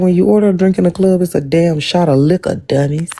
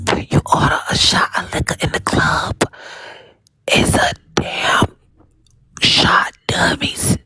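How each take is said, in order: First: It is read in his own normal voice. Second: It is read imitating Drop Queen's whispery voice.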